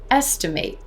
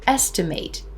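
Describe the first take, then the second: First: The final syllable sounds like 'eight'. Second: The final syllable sounds like 'it'. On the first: It is used as a verb. "that's a verb. Hear the difference in the ending there?" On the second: It is used as a noun. "Estimate is a noun"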